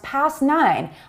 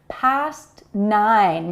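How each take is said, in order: First: The T before the N is not released. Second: The T before the N is fully released.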